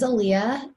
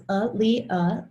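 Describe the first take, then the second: First: Said in the usual way. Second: Aaliyah slowly, syllable by syllable; name sounded out. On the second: Shown as a demonstration. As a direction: break Aaliyah into three clear, separate syllables. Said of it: "it's pronounced".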